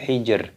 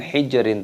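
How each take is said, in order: First: The word ends sharply on the 'r' sound. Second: The word ends with an added 'in' syllable. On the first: The speaker calls it right. "tapi hijr" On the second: The speaker calls it wrong. "Bukan hijrin"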